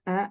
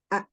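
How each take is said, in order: First: The sound is said weakly and softly. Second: The sound is said strongly and firmly. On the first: The speaker calls it wrong. "Jangan dibaca A, jangan lemah" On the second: The speaker calls it right. "sangat menampakkan sifat syiddah dan jaharnya"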